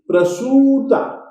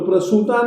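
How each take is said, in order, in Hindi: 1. 'उ' की मात्रा दीर्घ बोली जाती है। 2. 'उ' की मात्रा ह्रस्व बोली जाती है। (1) "बड़े ऊ की मात्रा के समान ही बोलेंगे" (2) "प्रसूता नहीं"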